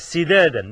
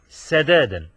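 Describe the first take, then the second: First: The first syllable has the vowel i. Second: The first syllable has the vowel a. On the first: The speaker calls it right. "النضر قالها سدادا بكسر السين" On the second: The speaker calls it wrong. "سدادا بفتح السين"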